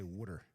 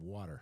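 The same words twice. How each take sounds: First: It is said in a Philadelphia accent. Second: It is said in a general American accent.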